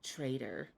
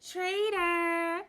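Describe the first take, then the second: First: It is said in a cold, resentful tone. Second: It is said in a light, teasing tone. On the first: The speaker is quietly hostile. "passive aggressive with it the second time" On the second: The speaker is only joking. "it was all playful"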